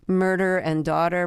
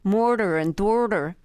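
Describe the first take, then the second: First: It is said in a standard accent. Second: It is said in an exaggerated Philadelphia accent.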